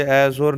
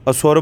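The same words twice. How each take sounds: First: ਐ ਸੁਰ opening on a wide "ai"; ਐ ਸੁਰ with a long first vowel; wrong pronunciation. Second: ਅਸੁਰ opening on a short "uh"; ਅਸੁਰ with a light neutral first vowel; correct pronunciation. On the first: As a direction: split ਐ ਸੁਰ as "ai-sor". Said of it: "ਐ ਸੁਰ ਨਹੀਂ ਕਹਿਣਾ". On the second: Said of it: "ਅਸੁਰ ਬੋਲਣਾ". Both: Shown as a demonstration.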